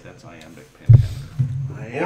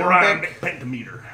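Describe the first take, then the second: First: Slow Texan read of the phrase; mock Texan accent; Texas drawl. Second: Said in the usual way. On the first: Shown as a demonstration. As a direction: say it like a Texan, slowly. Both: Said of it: "like we're from Texas".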